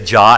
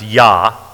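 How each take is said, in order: First: The name begins with a J sound. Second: The name begins with a Y sound. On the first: "We say Jah as in Jehovah" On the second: "Or they pronounce it many times, Yah, like in Yahweh"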